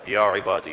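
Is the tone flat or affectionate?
flat. It is said in a flat, recited tone.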